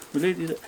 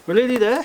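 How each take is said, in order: First: Said in the usual way. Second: "We're nearly there" much higher, rising on there; high coo. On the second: Pretend. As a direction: coax the cat up in pitch. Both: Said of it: "I should be talking really high pitched".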